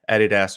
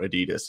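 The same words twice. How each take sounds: First: The name is said in a non-American way. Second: The name is said in an American way.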